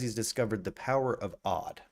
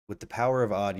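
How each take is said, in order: First: Said in the usual way. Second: "power" hit louder in "with the power of odd"; stress on power. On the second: Retold or imitated. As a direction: lean hard into "power", then let "of odd" land. Repeats catchphrase, second time punched.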